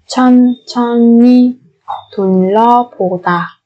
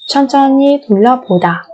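First: Syllable by syllable. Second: Said in the usual way. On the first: Shown as a demonstration. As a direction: draw out each syllable of 천천히 둘러보다. Slow syllable-by-syllable model. (đọc 천천히 둘러보다 chậm, tách từng âm)

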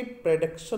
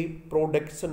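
First: "प्रोडक्शन" with a reduced first vowel, "pruh-DUK-shun"; correct pronunciation. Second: "प्रोडक्शन" with a full o, "pro-DUK-shun"; wrong pronunciation. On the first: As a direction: say "प्रोडक्शन" starting "pruh", no full o. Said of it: "इसके प्रोडक्शन बोलेंगे". ("प्रोडक्शन" का सही उच्चारण, "प्रडक्शन") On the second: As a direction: say "प्रोडक्शन" starting on a rounded "pro". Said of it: "क्या नहीं बोलेंगे". ("प्रोडक्शन" का गलत उच्चारण, पूरा "प्रो") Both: Shown as a demonstration.

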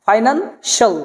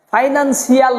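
First: "ফাইন্যান্সিয়াল" said as fai-nan, shal; correct pronunciation. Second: "ফাইন্যান্সিয়াল" said as fai-nan-si-al; two syllables, si-al, ending "ফাইন্যান্সিয়াল"; wrong pronunciation. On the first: Teacher correcting the word, "ফাইন্যান্সিয়াল" with shal ending. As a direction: split off a single shal in "ফাইন্যান্সিয়াল". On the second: Teacher rejecting a mistake, "ফাইন্যান্সিয়াল" with si-al ending. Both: Shown as a demonstration. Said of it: "না".

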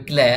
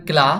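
First: ক্ল্যা tilted to ae; slanted "ae" vowel. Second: ক্লা with straight open aa; straight "a" vowel. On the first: Teacher contrasts two readings of CLA, ক্ল্যা with slanted ae. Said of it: "একটু কাত করে". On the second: Teacher contrasts two readings of CLA, ক্লা with straight aa. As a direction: keep ক্লা open, as in "spa". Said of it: "আকারের মতো". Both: Shown as a demonstration.

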